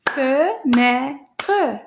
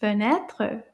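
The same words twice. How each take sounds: First: Each syllable of "Fenêtre" slow and separate. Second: "Fenêtre" run together as one word; a bit faster. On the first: Teacher clapping syllables for the children, "Fenêtre" split into slow beats. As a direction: clap out "Fenêtre" in distinct beats. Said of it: "clap the syll- syllables for this word". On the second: Teacher asks for a repeat, "Fenêtre" said a bit faster. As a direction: say "Fenêtre" briskly, syllables joined. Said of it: "Maybe a little bit faster". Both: Shown as a demonstration.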